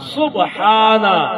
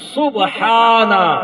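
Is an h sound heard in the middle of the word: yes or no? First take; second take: yes; yes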